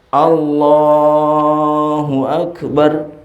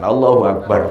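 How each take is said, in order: First: The phrase is drawn out, 'bar' comes late. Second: The final syllable 'bar' is said high.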